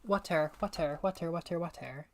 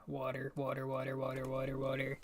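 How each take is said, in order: First: "Water" with a crisp, fully released T; T pronunciation. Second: "Water" with a soft D-like tap for the T; low, repeated "Water", the T turned to a quick D; D-like pronunciation. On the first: Linguistics student showing what nobody says, "Water" with a hard T. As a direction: drill "Water" with a hard T and a clear second syllable. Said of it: "it's not a T". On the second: Linguistics student drilling the English sound, "Water" with a D-like tap. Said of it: "it's a, it's a der". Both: Shown as a demonstration.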